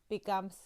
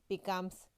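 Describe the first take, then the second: Both takes have the same delivery.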